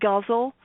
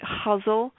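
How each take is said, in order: First: The word begins with a hard G sound. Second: The word begins with an H sound. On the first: This is the speaker's own pronunciation. "I pronounce it guzzle" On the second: This is how many other people pronounce it. "a lot of people pronounce it huzzle"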